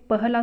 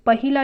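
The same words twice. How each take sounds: First: पहला without the i after ह; correct form. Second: पहिला with a short i after ह; incorrect form. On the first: Teacher giving students the correct word, पहला with no i. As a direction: say पहला as pah-laa. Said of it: "पहला शुद्ध है". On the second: Teacher showing the misspelt word, incorrect form पहिला with hi. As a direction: say पहिला as pa-hi-laa. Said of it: "पहिला अशुद्ध है". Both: Shown as a demonstration.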